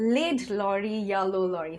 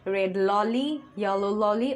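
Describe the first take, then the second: First: Red is said with an l instead of r. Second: Lorry is said with an l instead of r. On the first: "অথবা" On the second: "এটা অনেক সময় হয়ে যায়"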